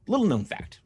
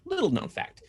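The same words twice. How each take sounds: First: Said in the usual way. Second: High, breathy trivia-host voice; higher teasing trivia announcement; mock trivia voice. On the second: Shown as a demonstration. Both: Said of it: "interesting fact about YouTube".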